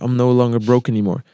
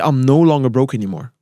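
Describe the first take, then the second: First: It is said hesitantly, without conviction. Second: It is said confidently, with strong energy. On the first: The speaker does not really believe it. The speaker calls it wrong. "that's a different energy" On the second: The speaker believes it. The speaker calls it right. "be confident about what you're saying"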